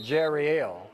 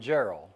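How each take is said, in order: First: The name is said as Jerry L. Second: The name is said as Gerald. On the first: The speaker calls it right. "he pronounces it Jerry L" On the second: The speaker calls it wrong. "I was calling Gerald"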